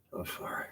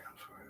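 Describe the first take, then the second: First: Said in the usual way. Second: Hushed whisper, almost no voice; a sheepish whispered sorry; whispered apology. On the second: Real, not acted. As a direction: breathe the apology under your breath. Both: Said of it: "I'm not cussing".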